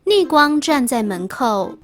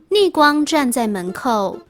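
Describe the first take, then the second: No difference in how they are said.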